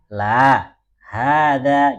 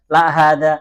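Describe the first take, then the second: First: There is a pause after "la". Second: There is no pause after "la". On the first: The speaker calls it right. "Ingat dalam pengucapan la, berhenti dulu ya" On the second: The speaker calls it wrong. "Jadi bukan la hada"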